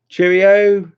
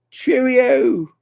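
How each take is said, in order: First: Cheerio called out high and loud; bright-pitched goodbye call on Cheerio; sing-song farewell. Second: Cheerio pitched very high, drawn out; high-pitched goodbye call on cheerio; high sing-song farewell. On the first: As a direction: call Cheerio out to a departing friend. Calling goodbye to a viewer. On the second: Repeats goodbye in higher voice. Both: Real, not acted.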